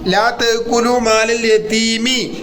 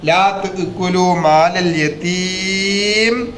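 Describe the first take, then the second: First: The last word ends with an added short vowel. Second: The last word ends on a bare consonant. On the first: The speaker calls it wrong. "പറയുമ്പോ അങ്ങനെ പറയരുത്" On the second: The speaker calls it right. "സുക്കൂനായിട്ട്"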